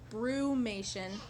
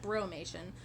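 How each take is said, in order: First: The first syllable sounds like 'broo'. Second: The first syllable sounds like 'bro'. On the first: The speaker calls it right. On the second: The speaker calls it wrong.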